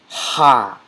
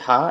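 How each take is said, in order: First: A strong H sound made deep in the throat. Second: A light H sound like English hello. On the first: The speaker calls it right. "it is a throat sound. It's a strong H sound" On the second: The speaker calls it wrong. "you're not going to say Ha as in hello"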